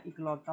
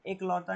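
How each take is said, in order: First: इकलौता said with a short i at the start, i-klauta; correct form. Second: एकलौता said with an e sound at the start, e-klauta; wrong form. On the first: Teacher giving students the right form, इकलौता with short i. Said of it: "होता है". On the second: Teacher showing students the wrong form, एकलौता with e. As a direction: say एकलौता as the wrong version, opening on e. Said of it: "नहीं होता बेटा". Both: Shown as a demonstration.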